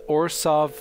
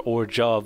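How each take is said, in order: First: The middle consonant is a plain S sound. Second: The middle consonant is a ZH sound. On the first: The speaker calls it wrong. "to me just se- sounds wrong" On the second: The speaker calls it right. "what should quite logically, when I look at the word, be pronounced"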